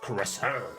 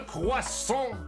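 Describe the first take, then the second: First: It is said with an English pronunciation. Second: It is said with a French pronunciation. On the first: The speaker calls it wrong. "You guys say croissant" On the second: The speaker calls it right. "It's actually pronounced a croissant"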